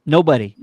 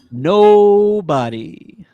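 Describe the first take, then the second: First: Firm, louder short answer; emphatic agreement. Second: NOBODY stretched very slowly, high and loud; drawn-out emphasis. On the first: Answering co-host's question about the deal, firm agreement. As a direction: answer firmly and briefly. Answering the hype, first take. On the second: Echoing co-host's hype, hugely drawn-out NOBODY. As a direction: draw it right out, loud and rising. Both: Real, not acted.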